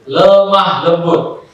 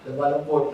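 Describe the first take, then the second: First: Drawn-out "lemah lembut", each syllable stretched; slow, drawn out. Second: "lemah lembut" said much softer, slow and gentle. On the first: Preacher reading his dorm note, "lemah lembut" drawn out slowly. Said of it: "saya tulis itu". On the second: Preacher repeating his reminder, "lemah lembut" soft and gentle. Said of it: "coba jadi pelan ngomongnya". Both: Shown as a demonstration.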